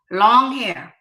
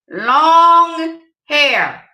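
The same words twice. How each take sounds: First: Said in the usual way. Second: "Long hair" punched louder, "Long" stressed high; emphatic. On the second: Shown as a demonstration. Pressing the point on the ladies, louder and emphatic. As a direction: belt out "Long hair" as a command. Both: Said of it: "I'm gonna say it again".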